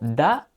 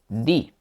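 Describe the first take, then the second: First: The vowel sounds like a short 'uh'. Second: The vowel sounds like a long 'ee'. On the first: "a veces yo digo da" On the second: "a veces digo di"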